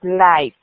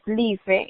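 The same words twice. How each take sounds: First: Life said in English as laif; correct pronunciation. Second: Life read the Spanish way as lee-feh; wrong pronunciation. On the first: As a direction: model life as laif for the class. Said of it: "es life". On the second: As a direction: mispronounce life like a Spanish word. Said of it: "esto no es life". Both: Shown as a demonstration.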